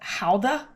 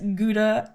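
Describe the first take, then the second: First: The word begins with a breathy H sound. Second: The word begins with a hard G sound.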